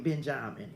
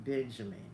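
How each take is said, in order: First: Benjamin corrected to ben-JAH-min; island pronunciation. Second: Said in the usual way. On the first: Shown as a demonstration. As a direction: open middle "jah" in Benjamin. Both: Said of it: "I mean, Benjamin".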